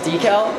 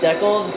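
First: It is said the non-Canadian, standard way. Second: It is said the way Canadians pronounce it. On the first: "I think it actually is pronounced decal" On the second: "all Canadians say it like that"

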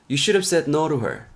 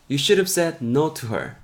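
No difference in how they are said.

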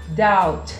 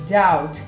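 No difference in how they are said.

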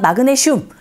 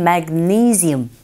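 First: Korean syllables with no strong stress. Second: English sounds with strong stress on the second syllable. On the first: The speaker calls it wrong. "우리식 발음은 마그네슘이지만" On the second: The speaker calls it right. "영어로 발음하실 때는 magnesium, 니이 이 부분에 강조 주시면 됩니다"

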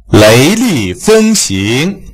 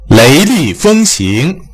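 Both takes have the same delivery.

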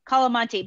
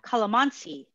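First: The word is said with a T sound. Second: The word is said with an S sound. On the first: The speaker calls it wrong. "I know I'm not saying that correctly" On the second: The speaker calls it right. "calamansi with like an S sound"

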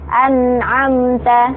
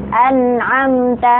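The two takes are said the same way.

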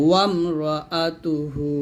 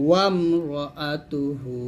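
Both takes have the same delivery.

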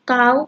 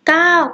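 First: The syllable is said with a high tone. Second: The syllable is said with a falling tone.

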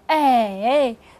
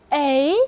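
First: The pitch dips low, then rises. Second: The pitch rises from mid to high. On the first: "三声是哎" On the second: "二声A"

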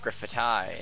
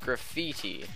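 First: The word is pronounced an unusual, irritating way. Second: The word is pronounced the ordinary way.

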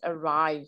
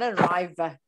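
First: The word ends on the v sound, e silent. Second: The final e is sounded as an extra vowel. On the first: The speaker calls it right. "It's a silent E" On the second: The speaker calls it wrong. "It's not arriver"

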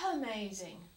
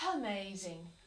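First: The word starts softly with a slight breath. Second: The word starts softly with a slight breath.

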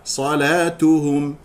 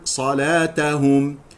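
First: The t is followed by a 'u' vowel. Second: The t is followed by an 'a' vowel. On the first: The speaker calls it right. "الصواب ضمها" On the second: The speaker calls it wrong. "يخطئ من يقرأ صلاتهم بفتح التاء"

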